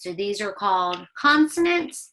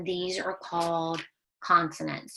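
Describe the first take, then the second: First: Louder, with consonants punched; teacher pressing the word consonants; stress on consonants. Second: Said in the usual way. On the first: Shown as a demonstration. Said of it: "Say it".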